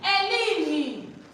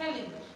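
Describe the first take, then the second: First: The name begins directly with a vowel. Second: The name begins with an h sound. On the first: The speaker calls it wrong. "Don't say Ellen" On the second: The speaker calls it right. "I love the way you pronounce it"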